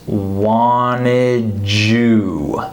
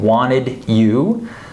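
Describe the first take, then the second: First: The D and Y merge into a J sound. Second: The D and Y are pronounced separately. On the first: "we say wanted, I'll put it like this" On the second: "instead of saying wanted you"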